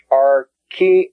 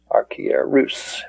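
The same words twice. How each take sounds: First: Archi-er-rus with a rising close; carefully pronounced. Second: Archi-er-rus drawn out, held r; slow careful repeat. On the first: Teacher pronouncing the Greek word for students. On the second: Teacher repeating the word slowly for students. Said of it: "that means high priest". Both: Shown as a demonstration.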